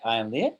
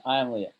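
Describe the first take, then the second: First: "late" swept sharply up at the end; rising question intonation. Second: Said in the usual way. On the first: Shown as a demonstration. Teacher showing how Spanish asks questions, rising intonation on "late". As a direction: turn the statement into a question by lifting "late". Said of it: "but you would just say". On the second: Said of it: "is the affirmative statement".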